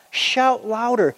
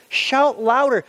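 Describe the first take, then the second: First: Slow, high teasing call; slow mock shout; mocking taunt. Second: High, slightly louder jeer; higher mock shout; louder mocking taunt. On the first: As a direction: drag it out to mock them. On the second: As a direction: push the taunt harder. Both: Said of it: "starting to have fun".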